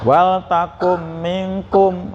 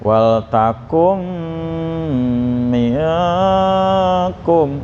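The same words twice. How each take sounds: First: The nasal hum is cut short, barely sounded. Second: The nasal hum is held for several beats. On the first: The speaker calls it wrong. "baru samar aja belum dengung sudah" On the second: The speaker calls it right. "jangan sampai kurang dari tiga ketuk ya"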